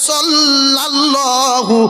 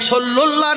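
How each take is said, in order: First: The middle syllable is pronounced 'lal'. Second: The middle syllable is pronounced 'lul'. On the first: The speaker calls it right. "আছে সাল্লাল্লাহু আলাইহি ওয়াসাল্লাম" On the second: The speaker calls it wrong. "সল্লুল্লাহ নেই"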